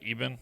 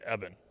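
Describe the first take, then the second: First: The first vowel is a hard E. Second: The first vowel is not a hard E. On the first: This is how people down here say it. The speaker calls it wrong. "We say Eben, like hard E" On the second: This is how the locals say it. The speaker calls it right. "They say Eben"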